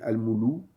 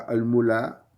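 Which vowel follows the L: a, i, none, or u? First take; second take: u; a. First: The L is followed by a u vowel. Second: The L is followed by an a vowel. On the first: "ou bien al-moulou" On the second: "on ne dit pas al-mula"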